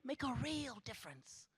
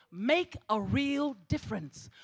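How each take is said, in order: First: Much softer, drawing back; quiet. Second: Slow, firm push on make; emphatic. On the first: Speaker to graduates, softly echoing herself. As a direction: let "Make a real difference" fall away softly. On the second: Speaker to graduates, slow emphatic urging. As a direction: lean hard on "Make a real difference". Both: Shown as a demonstration. Repeats the phrase, then fades.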